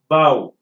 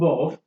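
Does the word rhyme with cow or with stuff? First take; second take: cow; stuff. First: The word rhymes with cow. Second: The word rhymes with stuff. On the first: The speaker calls it right. "It is to be pronounced as bow" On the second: The speaker calls it wrong. "It is not buff"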